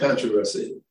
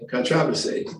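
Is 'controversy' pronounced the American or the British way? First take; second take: American; British. First: It is said with an American pronunciation. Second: It is said with a British pronunciation. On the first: This is the speaker's own way of saying it. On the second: This is how the listeners say it.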